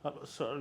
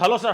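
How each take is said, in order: First: The greeting sounds dull, careless and unprofessional. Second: The greeting sounds warm, attractive and professional. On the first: The speaker calls it wrong. "not like this after coffee" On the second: The speaker calls it right. "Your sound should be attractive and professional"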